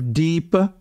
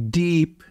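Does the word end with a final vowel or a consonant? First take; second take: vowel; consonant. First: The word ends with a final a vowel. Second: The word ends on a consonant, no final vowel. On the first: This is the Sanskrit form. "instead of Deepa" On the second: This is the Hindi form. "with no final A"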